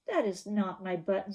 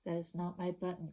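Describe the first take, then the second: First: Said in the usual way. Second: Quiet, hurt little voice; soft sad whimper. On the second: Shown as a demonstration. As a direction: reread it the way Toad cried. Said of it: "one of the words that he uses is cried".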